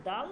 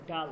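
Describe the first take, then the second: First: Teacher's contrast, দাল with dental d. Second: ডাল with a hard retroflex d; teacher's contrast, ডাল with retroflex d. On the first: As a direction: say দাল with tongue on the teeth. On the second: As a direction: curl the tongue back for the d in ডাল. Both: Shown as a demonstration. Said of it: "উচ্চারণটা খেয়াল করবেন".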